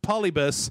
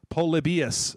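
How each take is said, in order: First: It ends in 'bus' without an 'ee' syllable. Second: It ends in 'bee-us' with an 'ee' syllable. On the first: The speaker calls it wrong. "can you please stop pronouncing it Pol- Polybus?" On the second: The speaker calls it right. "It's pronounced Polybius"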